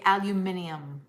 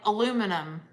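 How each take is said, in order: First: It is said the British way, five syllables. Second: It is said the American Southern way, four syllables.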